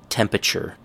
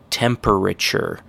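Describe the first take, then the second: First: The word is squeezed into fewer, blurred syllables. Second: Every syllable of the word is said clearly. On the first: The speaker calls it right. "Everybody says temperature" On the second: The speaker calls it wrong. "the correct pronunciation is temperature"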